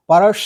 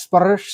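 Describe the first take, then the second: First: "পরাস" high and loud with a long hissing s and rising end; hissing double s. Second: "পরাস" repeated with the final s clipped short, almost "পরা"; second try. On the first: Teacher challenging students to say it, loud hissing "পরাস". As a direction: push the doubled s of "পরাস" into a hiss. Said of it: "এটাকে তুমি সঠিকভাবে উচ্চারণ করো তো". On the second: Teacher repeating the word to show the trouble, s swallowed. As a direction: say "পরাস" again, the s barely there. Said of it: "এই যে এস এর double sound". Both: Shown as a demonstration.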